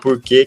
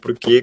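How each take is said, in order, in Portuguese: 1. O R tem o som do interior. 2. O R tem o som da cidade de São Paulo. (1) "que é o R interiorano, que é o que eu uso" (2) "com R paulistano"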